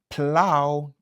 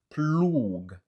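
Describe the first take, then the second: First: The word ends with an ow sound. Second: The word ends with a g sound. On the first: The speaker calls it right. "c'est ow" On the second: The speaker calls it wrong. "ni c'est pas ploug"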